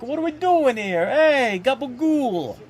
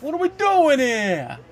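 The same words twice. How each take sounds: First: Much higher mock New York Italian accent, hamming the gabagool. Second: Slow, much higher, louder New York-style exasperated whine; Jalen Hurts impression. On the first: Streamer jokes the quarterback sounds like a New Yorker, hammed-up New York accent. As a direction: play it like a cartoon New Yorker throwing up his arms. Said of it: "speaking like he's in New York". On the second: Streamer mimics a quarterback on the sideline, slow New York disbelief. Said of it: "And Jalen Hurts just like".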